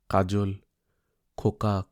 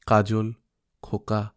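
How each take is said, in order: Both takes have the same delivery.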